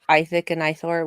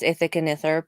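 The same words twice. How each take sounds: First: The names sound lisped, like 'I thick, I Thor.' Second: The names are said plainly, without a lisping sound. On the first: "which sounds like I have a lisp. I I thick and I Thor" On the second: "I'm pretty sure it's Ithik and Ithor"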